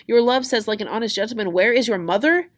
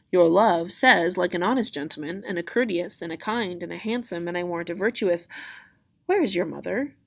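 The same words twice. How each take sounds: First: High, loud, incredulous echo; exasperated mocking repeat; indignant Juliet. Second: String the answer along, then switch to a question; lightly acted, unhurried nurse; stalling nurse. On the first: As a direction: throw the nurse's words back at her. Juliet throws nurse's words back. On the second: Nurse stalls, breaks off mid-answer.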